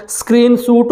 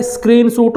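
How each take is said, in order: First: "स्क्रीनशॉट" starting straight on the S; no vowel before S. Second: "स्क्रीनशॉट" with a short i before the S; added initial i. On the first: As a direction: say "स्क्रीनशॉट" as skreen-soot, no leading i. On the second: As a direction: say "स्क्रीनशॉट" as is-kreen-soot. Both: Shown as a demonstration. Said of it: "स्क्रीनशॉट होता है या स्क्रीनशॉट होता है".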